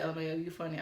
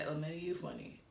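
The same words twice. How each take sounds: First: Said in the usual way. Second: Low, softer sarcastic mimic; mock it back at him. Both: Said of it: "like the mocking tone".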